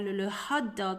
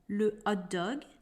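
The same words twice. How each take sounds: First: The h at the start is pronounced. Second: The h at the start is silent. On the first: The speaker calls it wrong. "we do not say" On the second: The speaker calls it right. "The letter H is silent in French"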